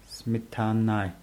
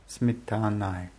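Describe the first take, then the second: No difference in how they are said.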